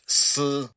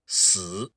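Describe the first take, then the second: First: The syllable has a high level tone. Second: The syllable has a low dipping tone. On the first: It means silk or a thread. "in the first tone, that would be pronounced" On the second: It means death. "if you were to pronounce that with the third tone"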